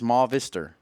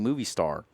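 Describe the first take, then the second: First: It is said with an 'ah' vowel, like mah-vister. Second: It is said like the English words movie star. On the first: The speaker calls it right. "It's Ma Vister" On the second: The speaker calls it wrong. "please stop saying movie star"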